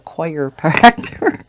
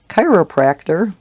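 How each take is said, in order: First: The first part sounds like 'choir'. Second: The first part sounds like 'kairo'. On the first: The speaker calls it wrong. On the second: The speaker calls it right.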